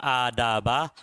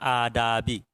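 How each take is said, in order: First: The word ends in the vowel a. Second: The word ends in the vowel i. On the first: It is the object of an omitted 'read'. "boleh dibaca adaba" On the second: It follows an omitted 'look at'. "boleh dibaca adabi"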